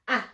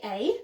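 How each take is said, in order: First: It is said as the short vowel sound. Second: It is said as the spoken name 'ay'. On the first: The speaker calls it right. "Get your child to say the A sound back" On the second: The speaker calls it wrong. "You wouldn't say A, not at this stage"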